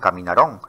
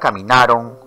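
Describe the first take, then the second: First: The stress is on the final syllable. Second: The stress is on the second-to-last syllable. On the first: The speaker calls it wrong. "no se pronuncian en el discurso oral como" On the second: The speaker calls it right. "porque la mayor fuerza de voz está en la penúltima sílaba"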